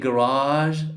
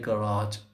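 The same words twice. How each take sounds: First: It is said with an English accent. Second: It is said with an Arabic accent. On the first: "In English, they say" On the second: "Arabs say"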